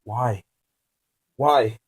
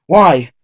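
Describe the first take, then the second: First: Exclaiming. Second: Higher, much louder startled cry; shocked captive exclaims at his captor; exclaimed. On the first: Acted. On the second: Shown as a demonstration. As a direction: burst out with the question. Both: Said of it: "exclaimed the words".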